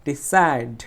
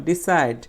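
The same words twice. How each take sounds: First: decide with a strong, long "said"; stressed second syllable. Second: Said in the usual way. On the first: Shown as a demonstration. Teacher showing students the stress, forceful "said" in decide. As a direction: punch the second half of decide. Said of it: "জোরে উচ্চারণ করব". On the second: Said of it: "side শব্দটা হচ্ছে ট্রাইসিলেবল".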